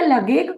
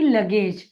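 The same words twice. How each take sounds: First: The word ends with a hard g sound. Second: The word ends with a j sound. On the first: The speaker calls it wrong. "इसे क्या मैं लगेज कहूंगी? नहीं" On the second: The speaker calls it right. "मैं इसको उच्चारित करूंगी लगेज"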